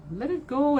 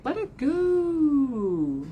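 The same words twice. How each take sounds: First: Said in the usual way. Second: Slow release. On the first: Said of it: "repeat at normal pace". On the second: Shown as a demonstration. Urging viewers to release burdens, drawn out slowly. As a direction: breathe the words out slowly. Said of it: "slow drawn-out release".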